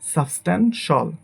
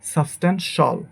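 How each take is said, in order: No difference in how they are said.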